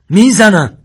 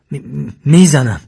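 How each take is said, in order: First: High, full-voiced final warning; shouted threat. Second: Loud, slow stuttered threat; stammering. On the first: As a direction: yell the threat without hesitation. Armed man's last warning, escalating. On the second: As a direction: stumble on the first syllable, then force out the warning. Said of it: "و با تته پته گفت". (تهدید با تته پته) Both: A narrator's reading.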